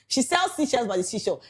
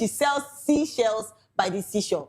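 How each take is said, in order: First: It is said at a fast pace. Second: It is said at a slower pace.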